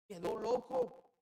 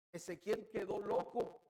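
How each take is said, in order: First: Cried out high and loud. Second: Said in the usual way. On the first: Shown as a demonstration. Preacher stresses that Ezekiel went mad, high loud cry. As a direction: leap way up in pitch on the repeat, loud. Preacher repeats the phrase, louder.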